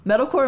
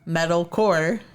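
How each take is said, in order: First: It is said as one word without a break. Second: There is a short break between metal and core. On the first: The modern style of the genre. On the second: The style closer to hardcore.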